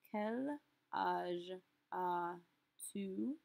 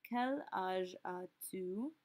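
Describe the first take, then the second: First: "Quel âge as-tu?" stretched out syllable by syllable; very slow, drawn out. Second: Slow "Quel âge as-tu?" with "quel" leading; slow model phrase. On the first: Teacher drawing the question out very slowly for students. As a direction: drag every syllable out. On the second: Teacher modelling the flipped question for students. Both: Shown as a demonstration. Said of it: "ask this in a second way".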